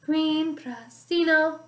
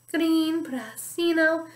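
The two takes are said the same way.

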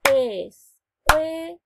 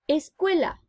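First: "Escuela" very slow and louder, Es-cue-la; "Escuela" spoken very slowly and louder, syllable by syllable; over enunciating. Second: Said in the usual way. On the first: Shown as a demonstration. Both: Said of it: "van separando las sílabas".

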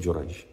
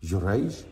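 First: Low, soft statement of the name; quiet accusing answer. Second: "Jurayj" with a rising question tune; questioning echo. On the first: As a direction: answer quietly, naming the culprit. Woman's answer naming the man. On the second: Crowd questions her answer back. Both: Retold or imitated.

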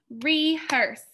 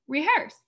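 First: Re-hearse, two beats said apart, falling; split into syllables. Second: Said in the usual way. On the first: Shown as a demonstration. Teacher to class, modelling the two syllables: syllable split. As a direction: tap out Rehearse as re, hearse. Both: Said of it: "Rehearse has two syllables".

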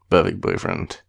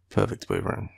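First: Put-on Perfect boyfriend with a falling, emphatic Perfect; pointed emphasis. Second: Said in the usual way. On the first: Teasing boyfriend, she lands Perfect emphatically. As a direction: lean hard on Perfect, then drop. Repeats it after clearing throat.

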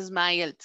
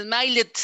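First: Said in the usual way. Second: "smiled" in two syllables, SMAIL-it; third-column ID ending. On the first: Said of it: "Pero no, dice smiled". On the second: Shown as a demonstration. Teacher ruling out third column, "smiled" said as SMAIL-id. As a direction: add a separate short syllable to the end of "smiled". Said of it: "si fuera en la tercera diría".

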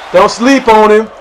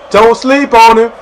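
First: Said in the usual way. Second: Slower, higher, louder repeat; emphatic hype. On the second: Acted. Warning viewers about teammate Shaggy, emphatic. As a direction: lean hard into each word.

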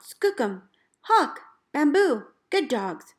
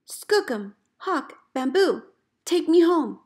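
First: Cheerful call to the dogs, louder on Hawk. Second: Desperate call. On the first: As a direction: call the team by name across the snow. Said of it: "I call out". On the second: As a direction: beg the dogs to bring you home. Lost in storm, calling dogs. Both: Retold or imitated.

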